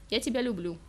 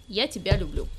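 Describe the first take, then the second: First: Dutiful and dull, тебя said with no feeling; obedient. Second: Я тебя люблю said a little brighter and louder, stress on я; a bit perkier. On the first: Girl obeys her boyfriend's demand, dutiful and dull. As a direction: recite Я тебя люблю like a chore. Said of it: "послушно произнесла девушка". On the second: Girl repeats it for her boyfriend, a bit perkier. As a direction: try again with a touch more cheer. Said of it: "ещё раз чуть пободрее повторила". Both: Acted.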